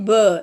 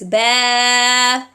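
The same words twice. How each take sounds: First: The consonant sounds heavy and thick. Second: The consonant sounds light and thin. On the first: The speaker calls it wrong. "make the ba heavier. ... It is not ba" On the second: The speaker calls it right. "It is ba batil, like this"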